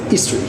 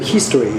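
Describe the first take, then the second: First: The word starts without any h sound. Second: The word starts with a clear h sound. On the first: "French people doesn't don't pronunciate H. ... they say history" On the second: "instead of history"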